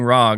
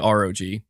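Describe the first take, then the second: First: The name is said as a single word. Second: The name is said as three separate letters. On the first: "my instinct is to just read it as "Rog,"" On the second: "I'll say R-O-G"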